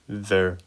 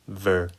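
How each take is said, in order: First: The syllable begins with a buzzing v sound. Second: The syllable begins with a buzzing v sound.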